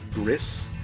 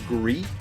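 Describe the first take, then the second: First: The word ends with an s sound. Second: The word ends without an s sound. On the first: "some people pronounce it" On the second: "I believe this game is actually pronounced"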